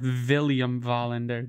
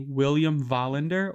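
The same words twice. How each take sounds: First: The name is said with V sounds. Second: The name is said with W sounds.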